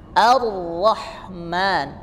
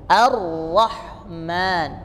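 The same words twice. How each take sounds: No difference in how they are said.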